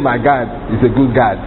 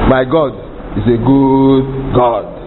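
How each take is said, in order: First: It is said with an American-sounding intonation. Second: It is said with a Nigerian-sounding intonation. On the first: Someone is imitating another person's way of speaking. The speaker calls it wrong. "you don't say" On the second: The speaker is being themselves. The speaker calls it right. "Because that's my intonation. I'm not an American"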